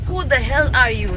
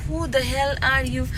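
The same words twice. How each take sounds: First: Mock filmy delivery, stressing the; dramatic film line. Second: Drawn-out filmy line, leaning on the; slow it down like a movie hero; slow dramatic quote. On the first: Retelling the song line to friends, mock dramatic. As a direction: quote the movie line with drama. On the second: Retold or imitated. Imitating the song line for viewers, slow and dramatic. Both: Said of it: "ऐसे type का ना".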